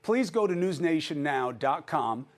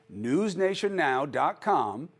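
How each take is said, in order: First: Said in the usual way. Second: "newsnationnow dot com" said again slowly, each part spaced out; slow it down on "newsnationnow dot com" so viewers catch it; slow repeat. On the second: Real, not acted. Host repeating the web address for viewers, slowly.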